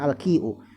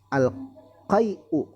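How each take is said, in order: First: The first vowel sounds like 'i'. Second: The first vowel sounds like 'ai'. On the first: The speaker calls it right. "harusnya al-qi'u" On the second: The speaker calls it wrong. "Ini sepertinya salah harokat"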